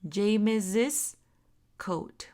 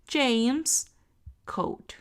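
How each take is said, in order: First: James is followed by an extra 'iz' syllable. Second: James is said with no extra syllable added. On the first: "ese posesivo se va a pronunciar como una is" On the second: "se lee James coat"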